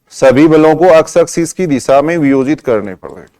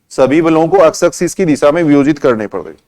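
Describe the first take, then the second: The two takes are said the same way.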